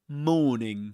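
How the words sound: The r sound in morning is silent. "But here you say morning"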